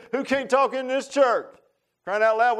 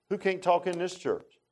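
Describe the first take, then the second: First: Chuckling mock challenge to the church; laughing tease. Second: Said in the usual way. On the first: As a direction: ask it again laughing at the crowd.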